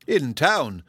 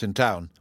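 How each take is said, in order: First: "In town?" with a lifted, louder rise of mild surprise; surprised cry. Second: Said in the usual way. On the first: A narrator's reading. Mrs Jennings catching his words, gently surprised. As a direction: let "In town?" jump out in disbelief. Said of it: "cried Missus Jennings". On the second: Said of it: "said he, addressing Lady Middleton".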